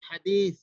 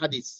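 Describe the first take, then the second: First: The middle consonant is a soft 'th' sound. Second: The middle consonant is a plain 's' sound. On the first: The speaker calls it right. "তা রয়েছে হাদিস" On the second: The speaker calls it wrong. "হাদিসের উচ্চারণটা আমরা বাংলা ভাবে করতেছি"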